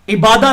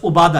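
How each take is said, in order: First: The first vowel is an 'i' sound. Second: The first vowel is a 'u' sound. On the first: The speaker calls it wrong. "अब हम ये इबादा लफ्ज़ बोलते हैं" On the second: The speaker calls it right. "उबादा आइन के ऊपर पेश है"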